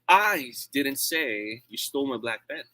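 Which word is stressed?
I. The word I is stressed. Someone else said it. "It means I'm not the one who said that"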